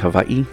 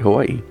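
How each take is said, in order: First: The middle consonant is a v sound. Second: The middle consonant is a w sound. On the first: The speaker calls it right. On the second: The speaker calls it wrong.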